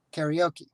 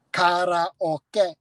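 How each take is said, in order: First: Said in the usual way. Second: Karaoke said ka-ra-o-ke, every vowel pure and separate; Japanese-style karaoke. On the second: Shown as a demonstration. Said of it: "Japanese syllabic structure is consonant, vowel".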